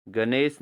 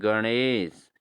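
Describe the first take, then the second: First: गणेश with plain dental n; wrong pronunciation. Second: गणेश with curled-tongue retroflex n; correct pronunciation. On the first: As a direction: say गणेश as "ga-nes". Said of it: "नहीं दोस्तों". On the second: Teacher corrects students, गणेश with retroflex n. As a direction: flap the n in गणेश. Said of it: "गणेश नहीं दोस्तों". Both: Shown as a demonstration.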